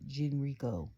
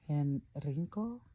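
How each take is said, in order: First: The name begins with a hard G sound. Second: The name begins with an H sound. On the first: It follows an English way of reading the name. "if it's the improper English way, it'd have been Gen Genrico" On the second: It follows a Spanish way of reading the name. "If it's Spanish way, it'll be El Hen, Henri- uh, Henrico"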